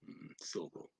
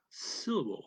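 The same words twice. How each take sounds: First: Soft whisper. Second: Said in the usual way. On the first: Shown as a demonstration. Teacher modelling the English word for French learners, in a whisper. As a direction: whisper the word syllable very softly, barely voiced. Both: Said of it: "Okay, like syllable".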